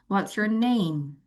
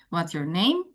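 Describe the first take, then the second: First: The voice falls at the end. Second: The voice rises at the end. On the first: The speaker calls it right. "Ketika kata name maka dia turun" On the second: The speaker calls it wrong. "Semua naik"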